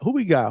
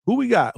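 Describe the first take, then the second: First: Said in the usual way. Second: Excited call. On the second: Real, not acted. Spotting a new arrival in chat.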